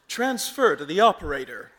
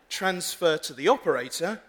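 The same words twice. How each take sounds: First: It is spoken in an American accent. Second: It is spoken in a British accent. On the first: The automated system will understand it. The speaker calls it right. "I have to conduct the entire conversation in American" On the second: The automated system will not understand it. The speaker calls it wrong. "So I can't say"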